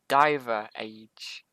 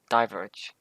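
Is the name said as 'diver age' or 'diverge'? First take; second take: diver age; diverge. First: The name is split into 'diver' plus 'age'. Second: The name is said as the single word 'diverge'. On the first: This is how most viewers say it. The speaker calls it wrong. "most of you pronounce it as, but I can't, I just can't say that, it doesn't sound right to me" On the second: This is how the creator says it. The speaker calls it right. "Diverge sounds a lot more natural to me"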